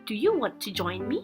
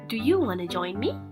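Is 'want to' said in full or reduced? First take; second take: full; reduced. First: Both words are said fully and separately. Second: The words blend into one short 'wanna'.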